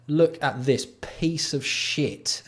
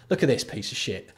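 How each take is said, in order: First: Slow, drawn-out scornful repeat; slow disgust. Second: Said in the usual way. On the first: Real, not acted. Streamer drags out his scorn at a pricey bike pump. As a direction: stretch every word out in contempt. Mocking a five hundred dollar pump.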